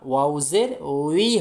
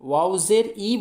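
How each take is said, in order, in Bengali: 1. সিলেবলটি 'w' glide দিয়ে শুরু হয়। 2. সিলেবলটি একটি শুধু 'ee' স্বরধ্বনি। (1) "ওয়াও জের উই হয়" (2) "ওয়াও জের ই বলবেন না"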